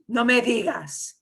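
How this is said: It is said in a surprised tone. The news is astonishing. "You're shocked. You're surprised"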